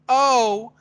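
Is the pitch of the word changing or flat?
flat. The word is said on one flat pitch. The feeling behind it is unclear. The speaker calls it wrong. "If I'm just going, oh, it's not clear what the subtext is"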